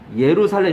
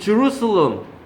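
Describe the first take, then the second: First: The word begins with a Y sound. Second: The word begins with a J sound.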